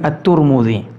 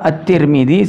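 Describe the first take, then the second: First: The name is said with u vowels. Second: The name is said with i vowels. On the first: This form follows the name of the region Turmud. "sebagian At-Turmudzi" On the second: This is the form most people commonly use. "sebagian orang menyebutnya Imam At-Tirmidzi"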